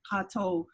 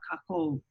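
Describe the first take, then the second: First: The middle consonant is a T sound. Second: The middle consonant is a K sound. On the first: This is the Niihau way of speaking. "I'm using the T" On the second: This is the way used outside Niihau. "if it's in outside"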